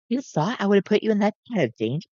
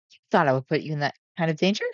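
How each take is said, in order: First: Stern, higher voice; strict tone. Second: Said in the usual way. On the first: Shown as a demonstration. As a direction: scold like a strict caretaker. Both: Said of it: "Can I actually get a strict tone for Sun?".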